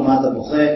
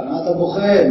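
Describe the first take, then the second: First: Gentle. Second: Scolding. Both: Pretend. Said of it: "לא, רבי יוחנן לא אמר לו".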